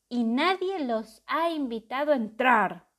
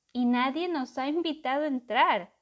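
First: Loud booming monster voice; booming terrible voice. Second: Booming terrible voice. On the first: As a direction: boom it out like a beast. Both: A narrator's reading. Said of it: "retumbó una voz terrible".

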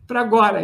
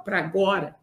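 First: Emphatic. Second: Low, soft first take; quiet. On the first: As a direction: call it out firmly like an order. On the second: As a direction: say it softly, almost to yourself. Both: Real, not acted. Repeats his team's answer.

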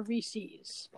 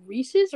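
First: "Reese's" ending in a long ee, REE-seez; second pronunciation. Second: "Reese's" ending in a short -iz, REE-siz; first pronunciation. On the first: Asking co-host how it is pronounced, second option REE-seez. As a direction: say "Reese's" to rhyme with pieces said "pee-sees". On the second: Asking co-host how it is pronounced, first option REE-siz. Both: Shown as a demonstration. Asks which of two pronunciations.

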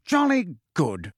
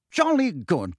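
First: Slower hearty repeat; drawn-out jovial repeat. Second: Hearty. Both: Acted. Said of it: "said Fudge heartily".

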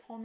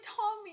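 First: "Tommy." in a mock British accent; British-accented "Tommy." done as a fan's impression. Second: High, soft "Tommy."; fond imitation of Newt. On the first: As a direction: say "Tommy." as an English boy would. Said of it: "he has a British accent". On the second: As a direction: lift "Tommy." up high and gently. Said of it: "the way that he's just like".

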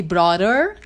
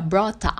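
First: "brother" with a pulled final R; American brother. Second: "brother" with an open ending, no R; British brother. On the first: Teacher contrasting accents, American "brother" with pulled R. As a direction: say "brother" ending in a strong American R. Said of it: "Do mesmo jeito que em vez de brother". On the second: Teacher contrasting accents, British "brother" without the R. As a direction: say "brother" as BRO-tah, dropping the R. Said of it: "fica brother". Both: Shown as a demonstration.

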